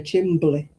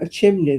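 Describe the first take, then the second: First: A b sound is added after the m. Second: The m is followed directly by an n.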